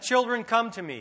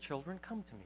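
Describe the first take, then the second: First: It is said in a gruff, upset tone. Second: It is said in a calm, plain tone. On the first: The speaker calls it right. "probably sounded something more gruff" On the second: The speaker calls it wrong. "normally you read it like this"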